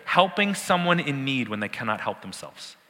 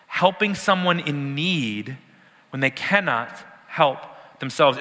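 First: Said in the usual way. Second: Each phrase slowed and spaced; slow, deliberate. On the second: Shown as a demonstration. Preacher slowing down to drive the definition home. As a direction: spell it out slowly for the class.

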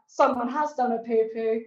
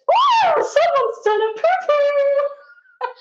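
First: Said in the usual way. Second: Put-on high, loud, drawn-out sing-song drunk girl; mocking drunk girl. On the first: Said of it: "I thought". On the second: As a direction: ham up a tipsy girl crooning in the toilets. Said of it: "she goes".

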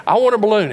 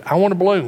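First: Much higher, louder tantrum demand; escalating toddler tantrum; yelling child. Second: Put-on higher, louder kid's demand; whining child. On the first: Retold or imitated. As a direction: kid screaming "want". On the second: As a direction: insist like a little boy. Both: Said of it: "I said".

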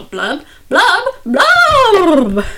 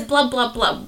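First: Loud rising blubs, the last one higher and louder; fish blub sounds. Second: Said in the usual way. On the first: Shown as a demonstration. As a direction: bubble out each blub like a fish, ending big. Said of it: "I go". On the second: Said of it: "But I don't just say".

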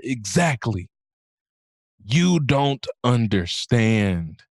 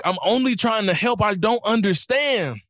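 First: Grave correction. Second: High, pleading self-defence, slowing at the end; offended protest. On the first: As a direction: let each word land like a lesson. Acted specialist's solemn answer to her. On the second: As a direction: act out an affronted would-be helper. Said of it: "And she got offended". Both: Retold or imitated.

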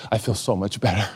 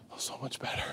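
First: Said in the usual way. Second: Barely audible, whispered sigh of self-satisfaction; mock relieved whisper. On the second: Preacher mimicking someone proud of abstaining, mock relieved whisper. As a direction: whisper it to yourself, savouring it. Smug abstainer repeats it under breath.

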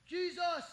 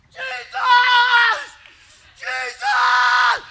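First: Soft, timid try at calling out the name; a shy kid's first try at calling Jesus; weak half-hearted call. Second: High, all-out scream of the name; reliving a boyhood scream, high and desperate. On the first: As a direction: say it softer, holding back, not yet desperate. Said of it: "No, no, no, no. ... with all you've got". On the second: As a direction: scream it with everything you've got. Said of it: "I start screaming at the top of my lungs". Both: Retold or imitated.

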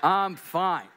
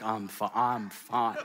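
First: Loud, laughing insistence. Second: Slow, laughing broken-up Ross; a lightly voiced heartbroken Ross; Ross from Friends. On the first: Real, not acted. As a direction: laugh it off loudly. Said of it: "everything is fine". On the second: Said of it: "he's like".

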